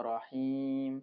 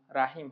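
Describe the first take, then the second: First: রহিম with a heavy, rounded "ro" at the start; রহিম with a full-mouthed R and long final "heem"; correct heavy Ra. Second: রাহিম with an open "raa" at the start; wrong light Ra. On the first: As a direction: say রহিম opening on "ro", not "raa". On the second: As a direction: say রাহিম opening on a thin "raa". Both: Shown as a demonstration. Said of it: "রাহিম হবে না".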